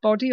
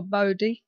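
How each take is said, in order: First: Boddy with a short o, as in body; short-o pronunciation. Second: Bodie with a long o, as in bow-dee; long-o pronunciation. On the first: Host checking guest's surname, short-o Boddy. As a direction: say Boddy to rhyme with shoddy. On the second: Host checking guest's surname, long-o Bodie. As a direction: say Bodie to rhyme with roadie. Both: Shown as a demonstration. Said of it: "pronunciation of your surname".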